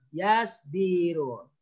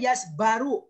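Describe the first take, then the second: First: The vowel after the b is i. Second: The vowel after the b is a. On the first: The speaker calls it right. "tapi harus yasbiru" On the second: The speaker calls it wrong. "nggak boleh yasbaru"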